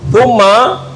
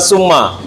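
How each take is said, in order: First: The word starts with a th sound. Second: The word starts with an s sound. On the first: The speaker calls it right. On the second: The speaker calls it wrong.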